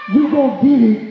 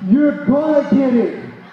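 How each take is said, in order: First: The first word is said as plain "you". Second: The first word is said clearly as "you're". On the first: The speaker calls it wrong. "not you gonna get it" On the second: The speaker calls it right. "It's you're gonna get it"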